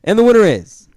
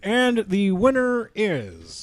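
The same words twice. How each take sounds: First: High, loud reveal call; announcer shout. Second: Slow suspense drag; drawn-out reveal. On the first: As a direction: build suspense for the winner. Award reveal, calling out. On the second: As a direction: stretch it for suspense. Award reveal, slow echo. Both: Pretend.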